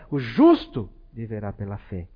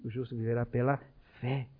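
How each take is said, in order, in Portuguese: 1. A palavra justo é acentuada. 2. A palavra viverá é acentuada. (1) "Um olha mais para o lado dessa justiça" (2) "E o outro, ... que é a vida"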